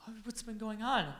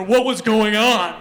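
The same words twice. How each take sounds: First: A lighter Kim voice. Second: Much louder, slow, heavy put-on voice; Russian lady bodybuilder. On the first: Retold or imitated. Back to the story, Kim asking gently, lightly voiced. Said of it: "Anyway, back to the conversation". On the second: Joking that Kim sounded like a Russian bodybuilder, loud and slow. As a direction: boom it out like a hulking bodybuilder. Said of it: "she was a Russian, like, ladies bodybuilder".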